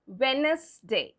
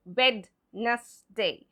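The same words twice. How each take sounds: First: Wednesday slowly, no first D, WENZ-day; correct silent-D pronunciation. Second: Wednesday slowly, with a sounded D, WED-nes-day; wrong spelling pronunciation. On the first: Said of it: "It's Wednesday". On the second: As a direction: break Wednesday up and voice its silent D. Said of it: "It's not Wednesday". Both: Shown as a demonstration.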